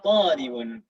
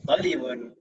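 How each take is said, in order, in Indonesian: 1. Vokal pertama panjang. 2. Vokal pertama pendek. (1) "Tetap ada perbedaan panjangnya" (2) "jangan dibaca talibun"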